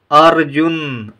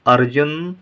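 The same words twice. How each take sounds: First: Arjun drawn out slowly, r clear; slow model reading. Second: Said in the usual way. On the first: Shown as a demonstration. Teacher reads Arjun slowly for the class to repeat. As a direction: stretch Arjun for repetition. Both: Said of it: "आइए पहले हम इन शब्दों को पढ़ें".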